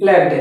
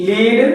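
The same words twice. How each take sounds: First: "లెడ్" with short e; short-e pronunciation. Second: "లీడ్" with long ee; long-e pronunciation. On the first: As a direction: say "లెడ్" to rhyme with bed. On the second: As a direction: say "లీడ్" to rhyme with need. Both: Shown as a demonstration. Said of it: "pronunciation వేరేగా ఉంది".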